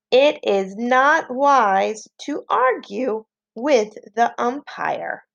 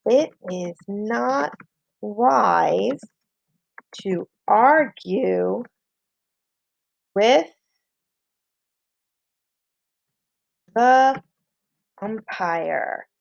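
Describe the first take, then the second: First: Slow, continuous sentence reading for pupils; slow dictation. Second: Slow "It is not / wise / to argue / with / the / umpire", long pauses between pieces; word-by-word dictation. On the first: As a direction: dictate it slowly as one phrase. Teacher repeats the sentence for pupils. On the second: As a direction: leave writing time after "wise", "to argue", "with" and "the". Teacher dictates while pupils write. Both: Shown as a demonstration.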